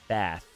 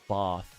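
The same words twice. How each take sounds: First: It is said in an American accent. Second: It is said in a British accent. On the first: The speaker calls it wrong. "That's American" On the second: The speaker calls it right.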